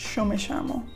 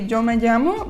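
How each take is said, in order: First: The double L sounds like sh. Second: The double L does not sound like sh.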